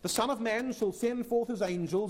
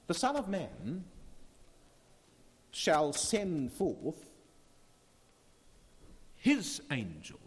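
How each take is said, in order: First: The sentence is read quickly. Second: The sentence is read slowly. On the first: "we read that too quickly" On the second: "Shall we try that again?"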